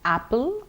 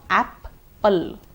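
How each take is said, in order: First: The P sound is pronounced once. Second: The P sound is pronounced twice. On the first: The speaker calls it right. "It will be apple" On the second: The speaker calls it wrong. "please don't pronounce them twice. It's not apple"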